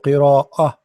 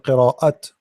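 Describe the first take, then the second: First: The final sound is a light, h-like breath. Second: The final sound is a clear, full t. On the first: The speaker calls it right. "it's a light T, light. So qira'ah" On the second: The speaker calls it wrong. "I'm not saying qira'at"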